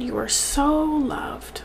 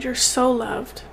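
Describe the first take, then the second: First: Slow, whispered, on the verge of tears; choking up. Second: Said in the usual way. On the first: Real, not acted. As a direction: let the words break into a teary whisper. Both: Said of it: "I'm gonna cry".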